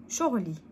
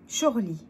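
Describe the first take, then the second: The two takes are said the same way.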